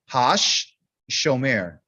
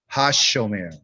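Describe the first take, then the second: First: The word is said slowly, split into parts. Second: The word is said quickly, with a held sh. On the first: The speaker calls it wrong. "I don't want you to say it like Hosh shomer. You don't say it like that" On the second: The speaker calls it right. "You have to say it faster"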